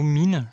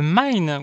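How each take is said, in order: First: The word is pronounced the French way. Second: The word is pronounced the English way. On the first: "ou en français" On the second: "en anglais"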